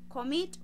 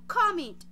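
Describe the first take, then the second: First: The stress is on the second syllable. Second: The stress is on the first syllable. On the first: The speaker calls it right. "la fuerza de la entonación la estoy haciendo en la segunda sílaba" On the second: The speaker calls it wrong. "Yo no digo commit"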